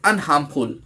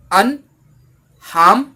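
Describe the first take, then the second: First: Said in the usual way. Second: "अनहार्मफुल" in three loud, separated syllables. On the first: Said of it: "three syllables है". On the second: Shown as a demonstration. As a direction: break "अनहार्मफुल" into अन, harm, फुल, slowly, each pitched up. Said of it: "इसमें देखिए three syllables है". ("अनहार्मफुल" को तीन टुकड़ों में रुक-रुककर बोलें)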